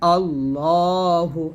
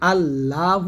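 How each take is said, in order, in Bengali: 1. L উচ্চারণটি ভারী ও মোটা। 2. L উচ্চারণটি হালকা ও পাতলা। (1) "বলতে হবে আল্লাহ" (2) "আল্লাহ না বলে"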